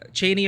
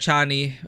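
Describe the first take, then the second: First: The first vowel sounds like 'ay'. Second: The first vowel sounds like 'ah'. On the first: This is how someone else said it. "he pronounced it Cheney" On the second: This is how the speaker expected it to be said. "I thought it was Chani"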